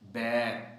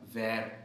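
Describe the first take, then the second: First: The word begins with a b sound. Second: The word begins with a v sound. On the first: The speaker calls it right. "ये दुरुस्त लफ्ज़ है बैर, बे के साथ" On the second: The speaker calls it wrong. "तो ये वैर नहीं है"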